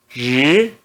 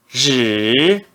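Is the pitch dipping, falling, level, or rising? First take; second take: rising; dipping. First: The pitch rises from middle to high. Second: The pitch dips low, then rises. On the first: "No segundo tom" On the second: "No terceiro tom"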